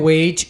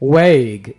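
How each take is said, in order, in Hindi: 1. शब्द का अंत j की आवाज़ से होता है। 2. शब्द का अंत कड़े g की आवाज़ से होता है। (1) "इसको आपने वेज नहीं बोलना" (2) "कैसे बोलना इस वर्ड को"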